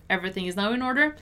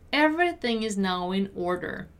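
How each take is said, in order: First: Fast, linked-up read; conversational-speed model sentence; quicker repeat. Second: Carefully spaced teaching read; measured teacher's model. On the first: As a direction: say it briskly with a rising end. Teacher repeats at quicker pace. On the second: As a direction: say each word deliberately. Teacher models sentence slowly first. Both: Shown as a demonstration.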